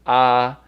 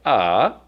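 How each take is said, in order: First: The pitch stays high and level. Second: The pitch dips down and then rises. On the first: "the first tone is ah" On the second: "the third tone that goes down and up"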